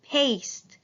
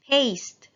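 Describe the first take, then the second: First: "Paste" repeated higher with a long A; teacher repeating the word. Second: "Paste" with a long A, higher; teacher modelling long A. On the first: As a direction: lengthen the A in "Paste". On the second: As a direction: lift and lengthen the A in "Paste". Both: Shown as a demonstration. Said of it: "Long A".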